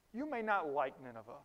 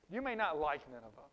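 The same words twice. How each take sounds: The two takes are said the same way.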